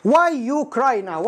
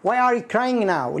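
First: Slow, deliberate reading of the error; slow wrong example. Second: Slow, careful model sentence; slow corrected sentence. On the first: Teacher slowly reads a learner's wrong question. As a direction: drag out the mistake. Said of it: "واحد يقول للثاني". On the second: Teacher slowly models the corrected question. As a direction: say it slowly and cleanly. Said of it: "أنا أقول لك مش مية مية". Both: Shown as a demonstration.

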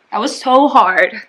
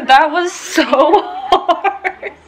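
First: Said in the usual way. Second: Breathless laughing words. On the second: Real, not acted. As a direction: laugh through it, still winded. Laughing after the hard class.

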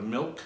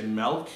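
First: Said in the usual way. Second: Milk as melk, short E vowel. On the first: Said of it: "instead of milk". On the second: Shown as a demonstration. Quizzing viewers, milk said melk. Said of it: "milk instead of milk".

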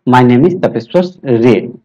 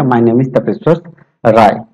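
First: Surname "रे" said as a short "ray", one syllable; retelling the interview, surname said "रे". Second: Surname "राय" said with an open "aa-ee" glide; retelling the slip, surname said "राय"; surname as Rai. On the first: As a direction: end on "रे" like "ray", not "rai". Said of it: "तो रे बोल दिया". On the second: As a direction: stretch "राय" into "raa-ee". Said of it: "जैसे मैं राय बोला तो मुझे फील हो गया कि मैं तो गलत बोल दिया". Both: Retold or imitated.

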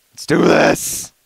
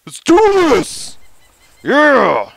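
First: Loud pep. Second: Very high, loud rallying shout; hyped battle cry. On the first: Psyching up. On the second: Player rallying his secretary on the fitness track, very high and loud. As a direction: psych yourself up, high and loud. Psyching up louder. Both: Real, not acted.

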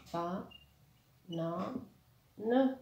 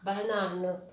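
First: "Ba, na, ne" in three separate beats; split into syllables. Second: Said in the usual way. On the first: Shown as a demonstration. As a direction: pause between syllables, lifting the last of "Ba, na, ne". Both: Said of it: "Trois syllabes".

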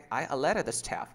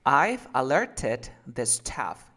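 First: "alerted" as "aleret" in a flowing sentence; native dropped t. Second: Slow, loud, "alerted" with full t; written-form pronunciation. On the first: Teacher models it for another try, t-less. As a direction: leave the t out of "alerted". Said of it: "es que así lo dicen". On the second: Teacher reads a longer sentence for conversion, t sounded. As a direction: read it slowly, hard t in "alerted". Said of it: "vamos a leer en oraciones". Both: Shown as a demonstration.

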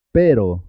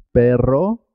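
First: Pero with a single tapped R; one quick R tap in pero, falling; simple R. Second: Perro with rolled rr, rising; double R. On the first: Teacher repeats the contrast with perro, pero tapped. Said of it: "suena simple". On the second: Teacher repeats the contrast with pero, perro trilled. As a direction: roll the R in perro, ending up. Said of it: "suena doble". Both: Shown as a demonstration.

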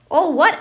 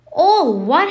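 First: Higher, louder puzzled question; short, raised query from a confused boy; boy's puzzled question. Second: Outraged giant's roar, high and loud; booming, incredulous shout; thundered. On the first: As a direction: ask it as a baffled boy. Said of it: "asked Harry". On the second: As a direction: thunder it in disbelief. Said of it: "Hagrid thundered". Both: A narrator's reading.

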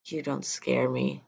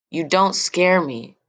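First: Much softer, slow defiant mutter; softer, slow, half-swallowed defiance; under her breath. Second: A raised, challenging repeat with stress on don't; girl stands up to her father, louder; louder defiance. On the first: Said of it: "mostly under my breath". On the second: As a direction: repeat it out loud, daring him. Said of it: "louder this time". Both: Acted.

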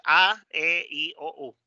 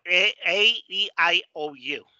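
First: A, E, I, O, U as "ah, eh, ee, oh, oo"; Spanish vowels. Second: A, E, I, O, U as "ay, ee, eye, oh, you"; restart, then recite A, E, I, O, U in English; gliding English A, E, I, O, U; English vowel names. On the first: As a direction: recite A, E, I, O, U with pure Spanish sounds. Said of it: "En español es". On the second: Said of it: "En inglés es". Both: Shown as a demonstration.

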